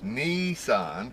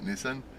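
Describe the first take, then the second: First: The first vowel sounds like the vowel in 'see'. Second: The first vowel sounds like the vowel in 'it'. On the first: The speaker calls it right. "the I is pronounced E" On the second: The speaker calls it wrong. "It's not Nissan"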